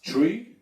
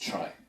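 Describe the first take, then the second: First: The vowel sounds like the one in 'tree'. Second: The vowel sounds like the one in 'try'. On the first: This is the pronunciation the inventor intended. "Knuth thought that it would be pronounced tree" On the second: This is the pronunciation people commonly use. "people got used to pronounce it as try"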